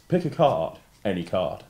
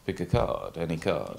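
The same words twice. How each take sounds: First: Grand showman patter voice; theatrical magician. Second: Theatrical magician. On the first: Shown as a demonstration. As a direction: announce it like a stage conjurer. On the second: Pretend. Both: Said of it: "say to me in your best magician's voice".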